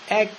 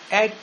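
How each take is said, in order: No difference in how they are said.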